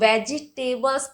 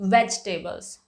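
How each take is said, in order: First: An extra vowel is pronounced after veg. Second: The vowel after veg is dropped entirely. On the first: The speaker calls it wrong. "बहुत सारे लोग हैं ... इसको वेजिटेबल्स pronounce करते हैं" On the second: The speaker calls it right. "ई का pronunciation वहां पे एक तरीके से खत्म हो जाता है"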